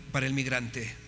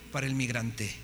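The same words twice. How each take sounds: The two takes are said the same way.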